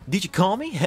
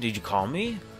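First: It is read in a put-on Sonic voice. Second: It is read in the speaker's normal voice.

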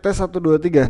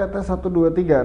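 First: The voice sounds close, loud and focused. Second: The voice sounds more distant and less focused. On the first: "pakai boom mic ... suaranya harusnya jauh lebih fokus" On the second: "ini gue pakai inline microphone ya"

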